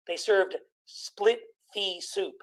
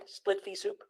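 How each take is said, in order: First: Said in the usual way. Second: Unvoiced, hushed repeat of the pun; whispered punchline aside. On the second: Shown as a demonstration. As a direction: breathe the pun again under your breath. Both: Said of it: "Get it?".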